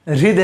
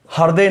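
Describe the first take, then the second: First: हृदय said with hri; हृदय the right way, ri sound; correct hriday. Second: हृदय said as harday; हृदय with ha-r, the wrong way; wrong hriday. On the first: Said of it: "हृदय है". (हृदय सही उच्चारण) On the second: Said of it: "नहीं है". (हृदय गलत उच्चारण) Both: Shown as a demonstration.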